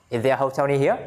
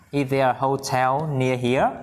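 First: Said in the usual way. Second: Slow, stretched question rising on "here"; slow model reading. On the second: Shown as a demonstration. Teacher asking if a hotel is near, slow model. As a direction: draw out "Is there a hotel near here" for learners.

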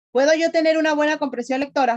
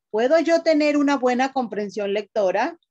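First: Más aguda, más fuerte y rápida, insistiendo; pregunta enfática repetida. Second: Said in the usual way. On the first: Shown as a demonstration. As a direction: repite la pregunta con fuerza para que respondan. Maestra repite pregunta a la clase. (la maestra insiste a los jóvenes, pregunta enfática y rápida)

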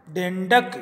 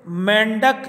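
First: डेंडक starting with retroflex ḍ; Malwi dendak. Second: मेंढक with aspirated ḍh; Hindi mendhak. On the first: Teacher giving the Malwi form, डेंडक with ḍ. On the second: Teacher giving the Hindi word, मेंढक with ḍh. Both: Shown as a demonstration. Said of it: "डे में बदल जाता है".

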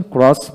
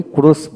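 First: ক্রস with open "o", "krawss"; preferred pronunciation. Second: ক্রস with closed "o", "krohss"; rejected pronunciation. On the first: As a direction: say ক্রস with an "aw" vowel. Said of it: "ক্রস বলি". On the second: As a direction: say ক্রস drawn out as "kurohs". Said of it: "ক্রস বলি না". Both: Shown as a demonstration.

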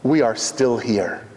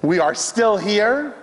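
First: Slow, low, falling close on HERE; measured low declaration with a final fall; solemn statement. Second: Slow, higher, lifting up on HERE; emphatic high repeat with a rising end; rising refrain. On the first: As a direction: state it gravely, dropping on "here". Refrain said first as statement. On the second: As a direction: raise "still" and leave "here" hanging upward. Refrain repeated with lifted tune. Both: Real, not acted.

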